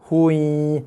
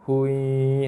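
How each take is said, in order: First: The nasal sound is pressed hard. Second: The nasal sound is soft and light. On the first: The speaker calls it wrong. "bukannya hui" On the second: The speaker calls it right. "lembut aja"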